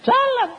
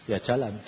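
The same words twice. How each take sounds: First: "jalan" jumps much higher and louder. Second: Said in the usual way. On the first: Retold or imitated. Preacher repeating his obedient reply, high loud "jalan".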